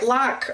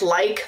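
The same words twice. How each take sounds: First: It is said with a strong Kentucky ah vowel. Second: It is said with a standard vowel.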